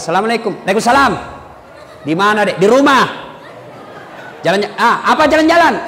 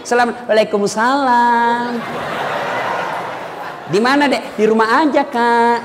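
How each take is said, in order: First: Brisk, no-nonsense phone voice; firm phone answer. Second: Swooning sweet voice. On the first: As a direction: answer firmly, no sweetness. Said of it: "kalau kau tegas terima telepon". (suara tegas menerima telepon) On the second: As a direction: coo it to make him melt. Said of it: "jangan kau juga mendayu-dayu". (suara mendayu-dayu manja) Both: Shown as a demonstration.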